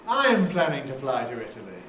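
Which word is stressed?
I'm. The main stress falls on I'm. "We can put the nucleus on I'm"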